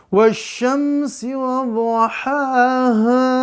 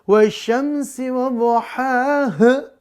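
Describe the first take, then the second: First: The final vowel is stretched out very long. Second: The final vowel is cut off very short. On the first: "itu kepanjangan pemirsa" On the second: "jadi kayak keselak itu bukan ngaji"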